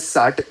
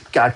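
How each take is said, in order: First: The word begins with an s sound. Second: The word begins with a k sound. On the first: The speaker calls it wrong. "नहीं बोलूंगा" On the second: The speaker calls it right. "क की sound से आएगा"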